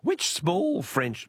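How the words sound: It is said in a high falsetto voice.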